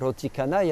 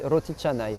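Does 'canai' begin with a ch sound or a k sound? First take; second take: k sound; ch sound. First: The word canai begins with a hard k sound. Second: The word canai begins with a ch sound. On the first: The speaker calls it wrong. "ne faut pas dire euh, roti canai" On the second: The speaker calls it right. "se prononce che. ... On dit roti canai"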